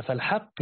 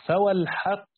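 First: Said in the usual way. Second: فوالحق said with the waw of oath clearly sounded; oath waw added. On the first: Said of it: "كأن الواو القسم محذوفة". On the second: Shown as a demonstration. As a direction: say فوالحق slowly, stressing the inserted و. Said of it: "يعني كأن المعنى".

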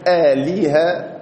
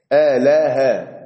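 First: آلهة slowly as "a-li-ha", with i after the l; آلهة in slow syllables, middle one with kasra; kasra on the lam. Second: آلها slowly as "a-la-ha", every vowel an a; آلها drawn out with fatha on each letter; all letters open. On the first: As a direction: stretch the middle of آلهة into a clear "li". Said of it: "بكسر اللام". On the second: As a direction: spell out آلها in slow open syllables. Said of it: "مفتوحة". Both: Shown as a demonstration.

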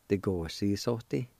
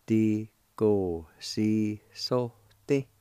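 First: Said in the usual way. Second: Slow, each syllable of "Di go si so ti" held apart; slow demo. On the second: Shown as a demonstration. Teacher repeating the Cherokee word for lecture, slowly. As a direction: sound out "Di go si so ti" so students can follow each piece. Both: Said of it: "it's pronounced like this".

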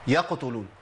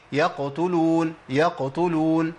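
First: "يقتلون" with a vowel slipped after the qaf, "يقوتلون"; wrong qaf. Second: "يقتلون" slow, qaf light and sukun clear; correct middle qaf. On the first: Teacher showing the common mistake, plainly. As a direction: sound the error "يقوتلون". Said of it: "ما أقولش". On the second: Teacher giving the correct version, slow and careful. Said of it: "أما أقول إيه". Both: Shown as a demonstration.

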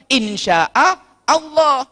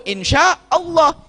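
First: "Insya'a Allah" said slowly as two separate words; slow, drawn-out "Insya'a ... Allah" in two pieces; split apart. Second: "insya Allah" run together as one smooth word; slow, connected "insyaallah"; joined up. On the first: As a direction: break "Insya'a" off from "Allah" with a clear gap. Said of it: "Kalau dipotong-potong bunyinya dua kali". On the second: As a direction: link "insya" straight into "Allah" with no break. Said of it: "Kalau disambung". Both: Shown as a demonstration.

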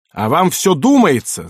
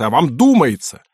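First: Loud, scornful yell. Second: Angry, mocking shout; yelling. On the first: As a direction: bark it at him, furious. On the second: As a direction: throw his words back at him. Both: A narrator's reading. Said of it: "заорал".

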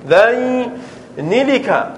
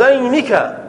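First: "ذينلك" stretched slowly as dhayni-lika; forbidden form with lam. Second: "ذينك" said as dhaynika, no l; correct form without lam. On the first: Teacher showing what is not allowed, slow and drawn out. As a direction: draw out "ذينلك", sounding the added l. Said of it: "لا يجوز". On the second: Teacher giving students the allowed form, joined up. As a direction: say "ذينك" in one go, ending in nika. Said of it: "أن تقول". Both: Shown as a demonstration.

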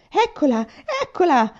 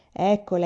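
First: Much higher, louder excited croak; old man croaking as his medal is pulled out; croaking with glee. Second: Said in the usual way. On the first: Acted. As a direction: cackle it out like a greedy old man. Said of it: "gracchiò il vecchio". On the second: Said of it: "e disse".

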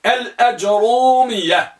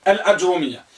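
First: الأجرومية slowly, unvowelled ج and long light ru; slow model pronunciation. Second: Said in the usual way. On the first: Shown as a demonstration. Teacher modelling the first type, slow and drawn out. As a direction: stretch الأجرومية out syllable by syllable. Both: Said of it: "وسكون الجيم وضم الراء مخففة".

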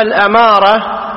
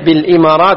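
First: الأمارة opens its stem with "a"; fatha on الهمزة. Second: بالإمارات opens its stem with "i"; kasra on الهمزة. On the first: Teacher introduces the road-sign word, الأمارة with fatha. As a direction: say الأمارة as "al-amara". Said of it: "بفتح اله". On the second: Teacher explains the country's name, بالإمارات with kasra. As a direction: say بالإمارات as "bil-imarat". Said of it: "بكسر الهمز". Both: Shown as a demonstration.

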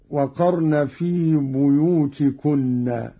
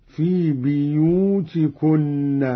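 First: Said in the usual way. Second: "بيوتكن" said biyutikunna, slowly drawn out; slow recitation, i after the b in "بيوتكن"; kasra on the ba. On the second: Shown as a demonstration. Teacher showing Qalun's reading, "بيوتكن" slow with bi for bu. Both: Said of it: "بكسر الباء هكذا".

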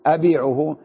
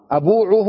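First: أبيعه with an i vowel, abi'uhu; correct form. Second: أبوعه with a u vowel, abu'uhu, as a question; wrong form. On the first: Teacher answering the class, correct أبيعه. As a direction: give أبيعه as the settled answer. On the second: Teacher asking class which form, wrong أبوعه. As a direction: offer أبوعه as the mistaken option, rising. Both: Shown as a demonstration. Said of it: "أبوعه ولا أبيعه".

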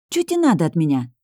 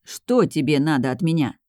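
First: Irritated outburst with slurred 'Чё те'; exploding, colloquial. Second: 'Что тебе' articulated in full, evenly; pedantic correction. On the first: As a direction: snap it out in street speech, 'Чё те' for 'Что тебе'. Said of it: "Взорвалась я". (раздражённо, просторечное «Чё те») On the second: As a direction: correct someone primly, each word of 'Что тебе' complete. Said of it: "поправил он точно так же". (назидательно, полностью выговаривая «Что тебе») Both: A narrator's reading.

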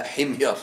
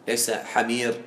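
First: حمير said ħimyar, kasra on the ħa, silent mim; correct vowels. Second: حمير said as ħamir, the wrong reading; wrong vowels. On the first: Teacher gives the right pronunciation of the tribe name. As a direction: correct reading حمير, ħim-yar. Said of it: "لا، حمير". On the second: Teacher shows students the wrong reading of the tribe name. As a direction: mispronounce حمير with open ħa. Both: Shown as a demonstration.

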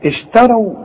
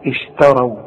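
First: اشتروا raised, with light شين and light تاء; raised model recitation; higher recited model. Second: اشتروا with thin شين and thin تاء; light sh and t. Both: Shown as a demonstration. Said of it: "فرقق لي الشين ورقق لي التاء".

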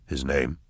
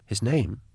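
First: Said in the usual way. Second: Higher, bewildered repeat of the question; puzzled echo. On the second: Acted. Drusha echoing Eisenhorn's question, higher and puzzled. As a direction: echo it back, lost. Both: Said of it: "Drusha echoed".

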